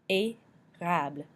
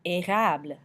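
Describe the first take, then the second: First: "Érable" slow, split after the "É"; slow teaching demo of "Érable"; syllable by syllable. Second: Said in the usual way. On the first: Shown as a demonstration. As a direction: sound out "Érable" with a gap after "ay". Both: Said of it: "makes the A sound".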